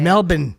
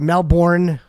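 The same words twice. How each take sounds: First: The name is said the local Australian way. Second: The name is said the usual American way. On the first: "How do they say it?" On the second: "I refuse to say it the way they say it"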